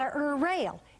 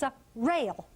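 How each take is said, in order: First: An uh vowel comes before the r. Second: The r starts cleanly with no vowel. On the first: The speaker calls it wrong. "This is not a er rail" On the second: The speaker calls it right. "It's a rail"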